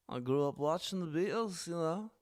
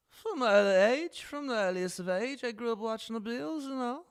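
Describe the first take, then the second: First: Lightly put-on British accent, softer; a hint of British, just playing along; understated British accent; mock British accent. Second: Put-on much higher, overdone British accent; exaggerated British accent; hammed-up British accent. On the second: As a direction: lay the British on thick, rising at the end. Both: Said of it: "The British accent".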